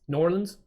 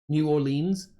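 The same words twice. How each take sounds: First: The name is run together into one word. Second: The name is said as separate, clear words. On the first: This is how locals say it. "very, very like conjunct, conjugated" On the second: This is how someone reading it would say it. "rather than New Orleans"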